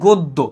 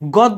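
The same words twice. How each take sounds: First: The first vowel is a rounded 'oh' sound. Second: The first vowel is an open 'aw' sound. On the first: The speaker calls it right. "এটা হবে গদ্য" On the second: The speaker calls it wrong. "যেমন গদ্য না"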